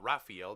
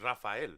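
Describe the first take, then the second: First: The name is said with an English pronunciation. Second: The name is said with a Spanish pronunciation. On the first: The speaker calls it wrong. "not Raphael" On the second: The speaker calls it right. "It's Rafael"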